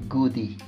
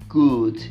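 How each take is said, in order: First: An extra vowel is added after the d. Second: The word ends cleanly on the d sound. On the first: The speaker calls it wrong. "não goodie" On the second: The speaker calls it right. "relembrando que a palavra good"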